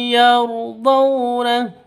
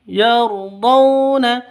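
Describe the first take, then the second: No difference in how they are said.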